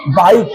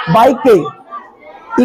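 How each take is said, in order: First: Said in the usual way. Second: "बाइक के" with the silent e voiced as an extra "ay"; final E sounded. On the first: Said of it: "लेकिन नहीं". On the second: Shown as a demonstration. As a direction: say "बाइक के" as bike-ay, two beats. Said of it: "तो बाइक के होना चाहिए".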